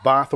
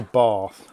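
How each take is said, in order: First: "Bath" with a short flat A, as in cat; short-A pronunciation. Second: "bath" with a long AH, as in father; long-A pronunciation. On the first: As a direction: say "Bath" with the vowel of "trap". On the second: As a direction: draw "bath" out as "bahth". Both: Shown as a demonstration. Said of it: "Bath or bath?".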